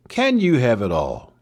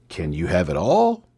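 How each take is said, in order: First: Can hit first, slower, falling after; stress on Can. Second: All lifted with a rise at the end; stress on All. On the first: Host testing stress on Can with listeners. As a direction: put the weight on Can, slowly. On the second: Host testing stress on All with listeners. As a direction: lean on All, voice rising. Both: Shown as a demonstration. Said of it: "Sometimes the emphasis is on the syllable".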